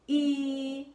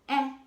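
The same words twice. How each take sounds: First: The vowel is said with its long sound. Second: The vowel is said with its short sound. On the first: "The vowels also have a long sound" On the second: "Those are the short sounds for the vowels"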